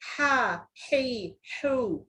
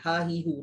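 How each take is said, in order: First: The h is tight and strained in the throat. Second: The h is soft and relaxed. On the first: It is the intended letter. The speaker calls it right. "Bunyi sebenarnya macam mana?" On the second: It is a different letter from the one intended. The speaker calls it wrong. "relax je bunyinya kan"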